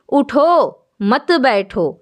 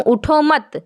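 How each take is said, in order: First: اٹھو stressed and set apart, then مت بیٹھو slowly; correct pause. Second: اٹھو مت said as one phrase then a stop; group اٹھو مت together and break; pause after mat. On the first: Teacher showing students the intended phrasing, slowly. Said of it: "لیکن میں کہنا چاہتی تھی". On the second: Teacher showing students a breath taken in the wrong place. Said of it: "اگر میں کہہ دیتی ہوں". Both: Shown as a demonstration.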